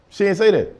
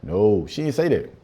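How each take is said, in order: First: Higher and louder, insisting; emphatic denial. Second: Said in the usual way. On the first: Shown as a demonstration. Comedian repeating the denial to the audience, higher and louder. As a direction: insist on it the second time.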